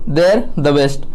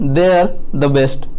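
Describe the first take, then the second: No difference in how they are said.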